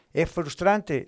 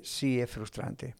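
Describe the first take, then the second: First: "frustrante" raised as a rhetorical question; lively, questioning "Es frustrante"; self-posed question. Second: Slow, soft "Sí, es frustrante"; subdued, drawn-out confirmation of "frustrante"; conceding answer. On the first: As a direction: pose "¿Es frustrante?" to the listeners. Asks himself, then answers. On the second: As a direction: admit it slowly, dropping the volume on "es frustrante". Answers his own question. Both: Acted.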